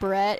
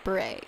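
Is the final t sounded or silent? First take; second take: sounded; silent. First: The final t sound is pronounced. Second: The final t sound is left silent. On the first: The speaker calls it wrong. "instead of, like, beret" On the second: The speaker calls it right. "take out the last letter and, like, not pronounce it"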